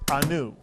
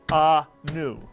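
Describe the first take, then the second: First: The first vowel is very short and reduced. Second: The first vowel is a full vowel. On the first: The speaker calls it right. "it's anu" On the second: The speaker calls it wrong. "it's not anu"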